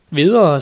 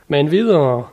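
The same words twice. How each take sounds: First: "videre" called out much louder, falling; louder impatient urging. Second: "Men videre" pressed out, a little louder; impatient urging. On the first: Knight pressing his squire for news, loud and impatient. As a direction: burst out, can't wait any longer. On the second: Knight urging Sancho on, impatient. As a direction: hurry the squire along, eager. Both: A narrator's reading. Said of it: "Mit hjerte sprænges af utålmodighed".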